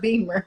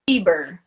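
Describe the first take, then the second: First: The middle consonant is an m sound. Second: The middle consonant is a b sound. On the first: The speaker calls it wrong. "You're saying Beamer" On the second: The speaker calls it right. "It's Justin Bieber"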